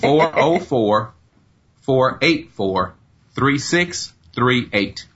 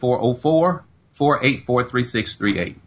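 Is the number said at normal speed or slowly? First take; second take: slowly; normal speed. First: The number is said slowly. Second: The number is said at normal speed.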